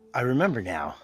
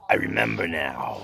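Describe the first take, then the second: First: It is said in a normal voice. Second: It is said in a deep, forceful voice. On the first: The speaker calls it wrong. "You have to say it right" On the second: The speaker calls it right. "try to get down deep"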